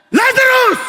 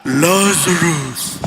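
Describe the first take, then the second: First: Loud high call of a name; commanding shout across a tomb; calling Lazarus. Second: Low, slow, booming name call; slow deep heavenly summons; archangel's call. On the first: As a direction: shout the name as if raising the dead. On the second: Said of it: "In the heavenlies, parang". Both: Shown as a demonstration.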